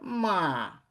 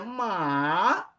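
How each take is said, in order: First: The pitch falls all the way without rising. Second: The pitch starts high, dips, then rises again. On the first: It is an insult to a person. "totalmente decrescente. Ma, ele não recupera como o anterior" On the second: It means horse. "começa elevado, cai e depois recupera"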